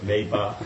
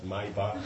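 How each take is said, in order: First: The first syllable sounds like the word may. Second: The first syllable sounds like the word my. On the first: You might get one someday. "you may get one, so it's Maybach" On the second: You already own one. "but you have one, it's Maybach"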